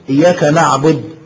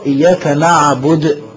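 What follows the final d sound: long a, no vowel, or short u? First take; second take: no vowel; short u. First: The final d ends with no vowel after it. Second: The final d is followed by a short u. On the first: The speaker calls it wrong. "فيسكن حرف الايه الدال" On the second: The speaker calls it right. "الدال عليها ضمة"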